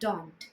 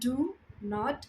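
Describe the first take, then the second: First: The words merge into one short syllable. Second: Two separate full words are said. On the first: "as a contraction पढ़ते हैं तब इसको हम बोलते हैं" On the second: "पूरा लिखा होता है तब हम पढ़ते हैं"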